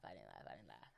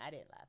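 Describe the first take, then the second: First: I didn't laugh, very low and soft; deep mock voice. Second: Said in the usual way. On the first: Shown as a demonstration. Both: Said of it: "let me stop lying".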